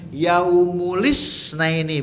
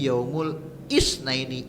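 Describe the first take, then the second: First: The i sound runs straight on from yaumul. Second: The i starts fresh with a catch before it. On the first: The speaker calls it wrong. "bukan yaumulis naini" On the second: The speaker calls it right. "tapi yaumul isnaini, i-nya menjadi hamzah qata'"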